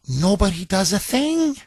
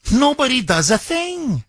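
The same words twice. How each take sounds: First: Said in the usual way. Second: "Nobody" hit high and hard, falling to the end; emphatic repeat. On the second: Real, not acted. Host to co-host Bob, repeating it in disbelief, emphatic stress on "Nobody". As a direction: lean on "Nobody" with outrage. Outraged repeat of bystanders' inaction.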